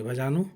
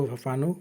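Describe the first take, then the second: First: "भजानु" said carefully with a clear j sound; corrected word. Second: "भफानु" said with a bh-f sound in the middle; tripping over the word "भफानु" mid-list; slip of the tongue. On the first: Shown as a demonstration. Teacher correcting herself for students, careful pronunciation. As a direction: fix the word "भजानु" with a rising finish. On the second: Real, not acted. Teacher listing Kurmali terms, misspeaks the word. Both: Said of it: "sorry, भजानु".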